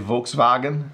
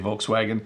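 First: The name is pronounced the German way. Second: The name is pronounced the English way. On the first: This is how the name is supposedly meant to be said. "I think I'm supposed to say Volkswagen" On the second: This is how English speakers usually say the name. "in English we usually just say Volkswagen"

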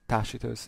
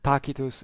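First: It uses the ecclesiastical church Latin pronunciation. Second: It uses the restored classical Latin pronunciation. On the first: "Tacitus in ecclesiastical pronunciation" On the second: "Tacitus in Restituta"

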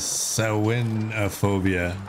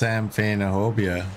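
First: The word is pronounced unlike its spelling. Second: The word is pronounced the way it is spelled. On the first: "But the pronunciation says Samhainophobia" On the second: "I read the word and say that's Samhainophobia"

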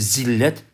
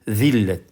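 First: It begins with a plain z sound. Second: It begins with a lisped, th-like sound. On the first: This is the Turkish form of the word. "Türkçesi zillet" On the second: This is the Arabic form of the word. "Arapçası zillet"

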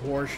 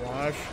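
First: The word has a regional Iowa pronunciation. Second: The word has a standard, non-regional pronunciation. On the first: It reveals a regional upbringing. The speaker calls it wrong. "because she's from Iowa, she says wash" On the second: It is the expected everyday form. The speaker calls it right. "instead of wash"

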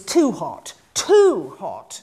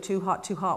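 First: The stress falls on the word too. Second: The stress falls on the word hot. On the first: Some heat is fine, but this goes beyond it. "Simon's was too hot, and in a way suggesting that there was an appropriate amount of heat" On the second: The heat itself is the shock. "most actors do it"

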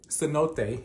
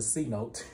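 First: The word is said with three syllables. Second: The word is said with two syllables. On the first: The speaker calls it right. "cenote is how you actually said it" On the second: The speaker calls it wrong. "We said it wrong earlier"

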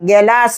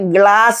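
First: A vowel separates the g and l sounds. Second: The g and l sounds form one cluster. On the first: The speaker calls it wrong. "ഗലാസ് എന്ന് പറയാനൊക്കത്തില്ലല്ലോ" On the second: The speaker calls it right. "അതിനെ ഗ്ലാസ് എന്ന് പറയും"

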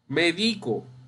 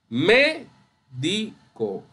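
First: The stress is on the second syllable. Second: The stress is on the first syllable. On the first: I medicate myself. "esta palabra puede ser grave o llana" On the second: A doctor. "esa es esdrújula"

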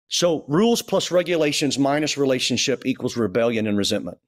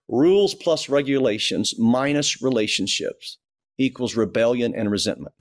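First: It is said at a normal pace. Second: It is said slowly and deliberately.

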